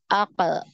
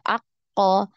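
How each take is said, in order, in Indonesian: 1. Konsonannya memantul ringan dengan 'e' yang samar. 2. Konsonannya digandakan dengan vokal yang mirip 'o'. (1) "lebih ke huruf e" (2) "condongnya ke fathah"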